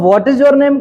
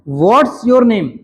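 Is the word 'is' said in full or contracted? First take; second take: full; contracted. First: The word 'is' is said as a full syllable. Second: The word 'is' is reduced to an s sound.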